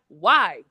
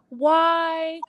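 First: The word is asked in a harsh, intimidating tone. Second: The word is asked in a soft, gentle tone. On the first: A hostile demand for an explanation. The speaker calls it wrong. "it was in this like intimidating tone of voice" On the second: A calm request for an explanation. The speaker calls it right. "it wasn't like, just tell me, you know"

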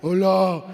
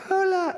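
First: It is said in a big, deep voice. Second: It is said in a small, babyish voice.

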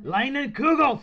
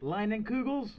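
First: It is said with an exaggerated German accent. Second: It is said in a plain American way.

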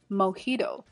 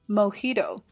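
No difference in how they are said.

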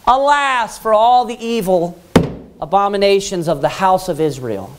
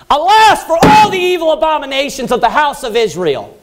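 First: It is said casually, without force. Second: It is said forcefully, with strong conviction.

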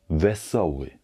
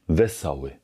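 No difference in how they are said.

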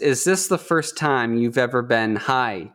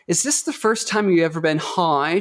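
First: It is said in a plain American accent. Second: It is said in a British accent. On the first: "the line was" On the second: "she just straight up slips into British accent"

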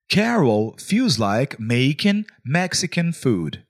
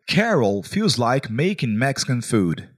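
First: It is said more slowly. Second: It is said at a normal pace.

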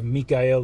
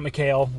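First: The name is pronounced the Slavic way. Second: The name is pronounced the English way. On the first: The speaker calls it right. "it's the Slavic version of the name Michael" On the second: The speaker calls it wrong. "it's not Mikael, like everybody says on the podcast"

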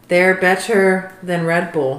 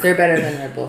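First: It is said louder and more clearly. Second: It is said at normal, casual loudness.

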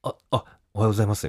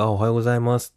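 First: It is said haltingly, sounding surprised and flustered. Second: It is said smoothly and cheerfully, smiling.

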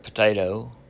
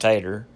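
First: All syllables are said, ending in 'oh'. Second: The first syllable is dropped, ending in 'er'.

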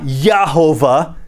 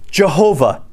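First: The word begins with a Y sound. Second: The word begins with an English J sound. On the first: The speaker calls it wrong. "it could be a soft J there" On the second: The speaker calls it right. "It's J"

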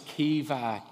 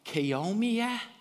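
First: The middle of the name has a V sound. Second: The middle of the name has an M sound. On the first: The speaker calls it right. "No, it's Kiva" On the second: The speaker calls it wrong. "everyone were calling her Kiomia?"

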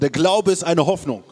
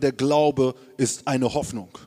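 First: It is said much louder. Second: It is said at normal volume.

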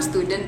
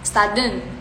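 First: It is said with a standard English pronunciation. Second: It is said with an Indonesian-style pronunciation. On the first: The speaker calls it right. "Harusnya kan student tuh" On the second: The speaker calls it wrong. "kita salah pronunciation"

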